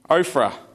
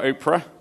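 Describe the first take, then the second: First: The middle sound is an F. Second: The middle sound is a plain P. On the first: The speaker calls it right. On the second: The speaker calls it wrong.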